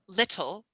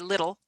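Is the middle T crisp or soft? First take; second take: crisp; soft. First: The middle t is pronounced strongly and crisply. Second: The middle t is pronounced weakly and softly. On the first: "the British would say little" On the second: "but we'd say little"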